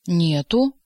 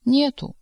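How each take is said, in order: First: Menacing bass roar. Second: Gentle woman's voice. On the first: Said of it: "грозным басом взревел повар". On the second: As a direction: ask it tenderly like a woman. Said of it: "женским ласковым голосом спросил он". (ласковый женский голос) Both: A narrator's reading.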